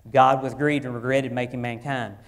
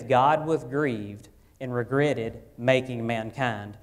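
First: Louder, pressed repeat of the verse; emphatic repeat. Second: Slow, measured reading of the verse; slow scripture reading. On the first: Pastor repeating the verse to his church, louder and pressing. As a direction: drive the verse home a second time. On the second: Pastor quoting Genesis to congregation, slow measured reading. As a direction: read it slowly, word by word, like the text. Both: Shown as a demonstration. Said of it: "it says".

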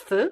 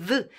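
First: "th" as an unvoiced breath between tongue and teeth; voiceless th. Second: "th" buzzed with the voice, as in "this"; voiced th. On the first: Teacher naming the final sound of north, voiceless th. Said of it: "au sunetul final th". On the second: Teacher showing the changed sound, voiced th. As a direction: isolate the voiced "th" of northern. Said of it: "îl vor transforma pe th-ul ăsta". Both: Shown as a demonstration.

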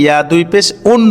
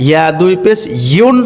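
First: উন starting on a bare vowel; quick spelling, OON with no y in উন; wrong un. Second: ইউন with a clear y onset; correct yun. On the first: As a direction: drop the y, say উন. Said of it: "ইয়া দুই পেশ উন বললে কি হবে?". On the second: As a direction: stress a gliding YOON in ইউন. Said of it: "উন হয় না". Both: Shown as a demonstration.

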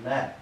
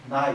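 First: ね as a long "nee"; fuse ai of nai into ee in ね; ね with one long vowel; older speakers' dialect form. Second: Said in the usual way. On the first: Shown as a demonstration. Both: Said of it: "というふうに発音される".

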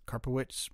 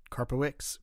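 First: Karpowicz as CAR-po-witch, ending in "ch"; second pronunciation attempt. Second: Karpowicz ending in an "iks" sound, like CAR-po-iks; unsure try at Karpowicz, W dropped, ending "iks"; stumbling pronunciation. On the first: Reader correcting a Marine's surname, Karpowicz tried as CAR-po-witch. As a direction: sound the W in Karpowicz and end on "witch". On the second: Reader attempting a Marine's surname, Karpowicz stumbled as CAR-po-iks. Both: Real, not acted. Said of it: "I cannot pronounce some of these names".

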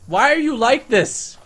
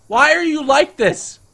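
First: Exasperated. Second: Much higher, louder, slow "why are you like this"; louder exasperated shout. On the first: Exasperated at other raptor. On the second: Exasperated at the weird raptor, louder shout. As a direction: escalate the disbelief to a yell. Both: Real, not acted.

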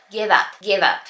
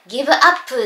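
First: "give up" run together as "gi-vap"; English linked pronunciation. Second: "give up" as katakana "gibu appu"; Japanese-style pronunciation. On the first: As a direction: link v into up and barely release the p in "give up". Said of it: "英語だと". (「give up」を英語式にギバッとつなげて発音) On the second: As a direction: say "give up" with Japanese vowels after each consonant. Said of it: "日本語だと言うと思う". (「give up」を日本語式にギブアップと発音) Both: Shown as a demonstration.

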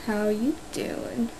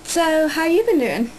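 First: Slow, soft whispered greeting. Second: Said in the usual way. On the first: Shown as a demonstration. Vlogger trying a whispered hello to viewers. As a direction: breathe it out slowly like a secret. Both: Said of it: "Oh, I can't do that".

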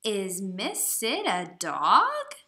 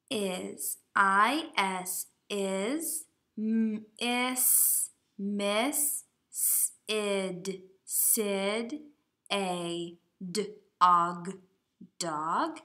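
First: "dog?" loud and slower, with a big rise on the end; question voice. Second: Decode it sound by sound, haltingly; sounding out slowly. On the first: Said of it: "you need to use your question voice". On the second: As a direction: sound out each word like a beginning reader. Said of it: "So the sentence should say". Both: Shown as a demonstration.

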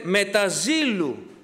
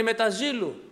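First: Με τα ζήλου drawn out slowly, each word weighed; slow emphasis. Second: Said in the usual way. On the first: Shown as a demonstration. Preacher to congregation, slow stress on με τα ζήλου. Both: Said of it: "Ξέρετε τι σημαίνει".

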